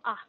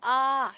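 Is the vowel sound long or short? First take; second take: short; long. First: The vowel is held only briefly. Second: The vowel is drawn out for longer. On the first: The speaker calls it right. "the short O sound is the ah" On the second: The speaker calls it wrong. "we only pronounce it very long, like ah"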